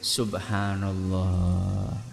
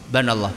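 First: It is said slowly and fully. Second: It is said hurriedly and clipped.

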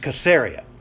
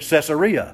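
First: The name begins with a hard K sound. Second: The name begins with a soft S sound. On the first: This is the original way of saying it. The speaker calls it right. "but it was Caesarea" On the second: This is the later common way of saying it. The speaker calls it wrong. "all of us Gentiles have been pronouncing it Caesarea all these years"

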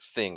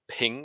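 First: The word begins with a TH sound. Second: The word begins with a P sound. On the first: The speaker calls it right. "I normally hear it as thing" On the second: The speaker calls it wrong. "Ethan has called it ping"

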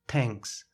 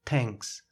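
First: The th is pronounced as a t. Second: The th is pronounced as a t.

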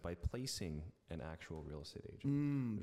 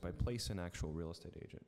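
First: The -ing ending of placing is fully pronounced. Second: The -ing ending of placing is dropped. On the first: The speaker calls it right. "instead of by placing an actual real estate agent" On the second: The speaker calls it wrong. "you're not enunciating all the way"

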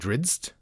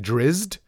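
First: The name has a D sound before z. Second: The name has no D sound before z. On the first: "he kind of puts a bit of a D sound in Drizzt" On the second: "I would say Drizzt"

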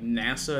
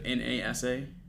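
First: The acronym is pronounced as one word. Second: The acronym is spelled out letter by letter. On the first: "you pronounce the acronym as a word instead of sounding it out" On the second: "sounding it out"

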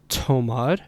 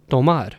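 First: The t has a puff of breath after it. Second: The t has no puff of breath after it. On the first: The speaker calls it wrong. "it's not tomar" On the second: The speaker calls it right. "that the has no breathiness after it. It has no aspiration"

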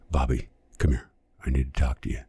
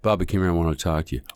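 First: It is said in an exaggerated, heightened way. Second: It is said in a natural, realistic way.

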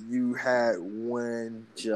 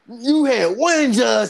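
First: It is said in his own normal voice. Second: It is said in a San Andreas character voice.

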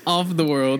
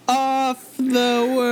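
First: The phrase is said at a normal pace. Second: The phrase is said slowly and drawn out. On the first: "I just say Off the World" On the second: "Why do you slow down?"

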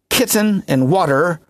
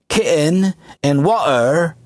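First: The T sounds are clearly pronounced. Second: The T sounds are swallowed as glottal stops.

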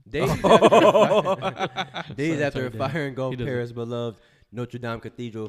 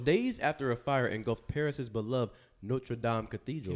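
First: It is read in a put-on French accent. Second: It is read in the reader's normal accent.

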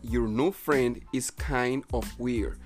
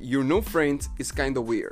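First: "Kind of" is said as two full words. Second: "Kind of" is reduced to "kinda".

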